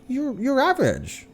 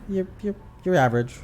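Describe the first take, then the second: First: The tone is warm and approving. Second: The tone is flat and dismissive. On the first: You did fine and should be okay. "with a tone of voice like, oh, yeah, ... well, that sounds like decent" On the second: You did badly. "when you tell them like, eh, ... they're like, I'm that bad?"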